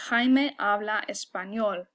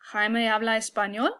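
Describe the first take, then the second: First: The voice falls at the end. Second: The voice rises at the end.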